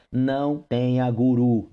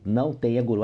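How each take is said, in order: First: "não tenha guru" said slowly, every word leaned on; slow down and drive "guru" home as a warning; slow emphatic warning. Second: Said in the usual way. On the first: Shown as a demonstration.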